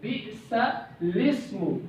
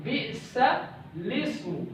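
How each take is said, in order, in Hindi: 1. शब्द 'ismu' सीधे 'bi'sal' के बाद जुड़कर चलता है। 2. शब्द 'ismu' सीधे 'bi'sal' के बाद जुड़कर चलता है।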